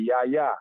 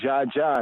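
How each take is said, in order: First: The word starts with a Y sound. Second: The word starts with a J sound. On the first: This is how J is read in German. "they say Ya Ya" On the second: This is the anglicized reading. "We'll say Ja Ja"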